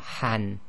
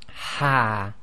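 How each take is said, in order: First: The syllable ends with an n sound. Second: The syllable ends with a lengthened vowel. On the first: The reciter continues without stopping. "could be rewritten as the ha fatha and noon sakin, so han" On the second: The reciter stops on this word. "we effectively pronounce this as ha"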